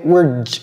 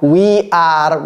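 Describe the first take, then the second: First: It is said as one very short syllable. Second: It is said as two full separate words. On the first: The speaker calls it right. "c'est tout. Même pas une seconde" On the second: The speaker calls it wrong. "sur les bancs de l'école, on nous disait que ça c'est we are"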